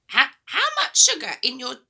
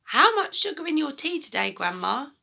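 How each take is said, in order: First: Put-on the boy's line read high and loud like Grandma; wrong voice, Grandma's. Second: Put-on the boy's line, corrected, lighter and less loud; a polite small boy asking his grandma; George's voice. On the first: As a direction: slip into the granny voice by mistake. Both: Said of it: "oh, sorry, that's George".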